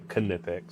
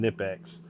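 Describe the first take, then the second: First: The word begins with a sounded K before N. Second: The word begins with an N sound, no K. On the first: "the K's would be a little bit more pronounced" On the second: "instead of saying"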